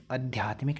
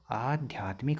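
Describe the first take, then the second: First: Short a opening आध्यात्मिक; wrong short first vowel. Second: Long aa opening आध्यात्मिक; long first vowel. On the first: Teacher showing the misspelt word, wrong short first vowel. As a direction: say आध्यात्मिक starting with a clipped short "a". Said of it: "आध्यात्मिक नहीं होता". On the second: Teacher giving students the correct word, long first vowel. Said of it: "आ लगता है". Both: Shown as a demonstration.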